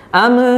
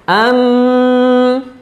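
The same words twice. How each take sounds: First: The m ends with a bouncing release. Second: The m is held for too long. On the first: "contoh yang salah nih... mantul" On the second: "Itu terlalu lama nahannya"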